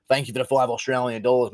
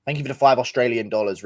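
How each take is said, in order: First: Put-on Australian accent. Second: Said in the usual way. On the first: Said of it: "I'm from Canberra".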